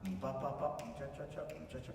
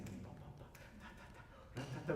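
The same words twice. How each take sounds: First: Light vocalised orchestra vamp; plain oom-pah accompaniment. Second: Hushed, nearly whispered orchestra vamp; listening accompaniment. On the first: Coach mimics what the orchestra gives, plain oom-pah. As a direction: tick out a bare accompaniment figure. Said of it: "not so much". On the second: Coach shows orchestra listening to the singer, hushed. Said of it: "I'm listening, I'm listening". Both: Shown as a demonstration.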